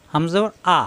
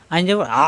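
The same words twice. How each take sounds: First: "আ" clean, without throat pressure; unpressed hamza. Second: "আ" squeezed in the throat; pressed ayn. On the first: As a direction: open "আ" easily at the throat's start. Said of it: "কোনো চাপ সৃষ্টি নাই". ("আ" চাপ ছাড়া) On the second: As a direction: press mid-throat on the final "আ". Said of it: "কণ্ঠনালীতে চাপ সৃষ্টি হবে". ("আ" কণ্ঠনালীতে চাপ দিয়ে) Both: Shown as a demonstration.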